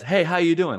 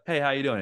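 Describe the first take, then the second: First: Loud, high, cheery hello; happy greeting. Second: Milder, slightly raised hello; grudgingly friendly greeting. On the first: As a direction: act out someone walking in happy. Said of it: "they're happy". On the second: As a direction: return the greeting despite a bad mood. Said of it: "even if you're in a bad mood". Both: Retold or imitated.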